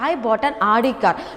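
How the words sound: The stress is on "Audi".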